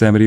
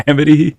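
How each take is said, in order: First: Said in the usual way. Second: Laughing out the name Amity, higher and louder; amused, rising "Amity" through a laugh. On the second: Real, not acted.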